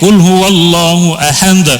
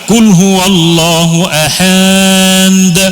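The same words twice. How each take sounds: First: The vowels are kept short. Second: A vowel is drawn out long. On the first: The speaker calls it right. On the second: The speaker calls it wrong. "Mana ada mat di situ?"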